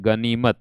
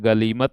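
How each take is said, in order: First: The middle consonant is an N sound. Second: The middle consonant is an L sound. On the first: This is the standard form of the word. The speaker calls it right. "शुद्ध होता है गनीमत" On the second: This is how people commonly say it. The speaker calls it wrong. "हम लोग बोलते हैं गलीमत"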